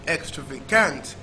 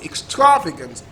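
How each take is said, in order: First: The stress is on the fourth syllable. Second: The stress is on the second syllable. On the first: "And last syllable" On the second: "Second syllable"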